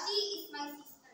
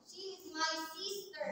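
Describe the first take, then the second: First: The stress is on she. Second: The stress is on sister.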